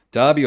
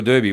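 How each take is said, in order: First: First Derby with an ah vowel; DAR-bee pronunciation. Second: Second Derby with an er vowel; DER-bee pronunciation. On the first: Host offering co-host a choice, Derby said DAR-bee. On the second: Host offering co-host the alternative, Derby said DUR-bee. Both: Shown as a demonstration. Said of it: "Do you say Derby or Derby?".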